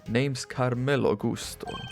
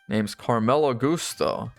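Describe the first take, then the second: First: It is read in a put-on Spanish accent. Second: It is read in the speaker's ordinary accent.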